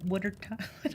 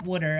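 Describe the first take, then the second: First: Philadelphia accent, wooder; broad Philly accent on water. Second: Water said the Philly way, wooder; Philly wooder, lips rounded; Philly accent. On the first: Real, not acted. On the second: Shown as a demonstration. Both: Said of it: "you just heard my Philly accent".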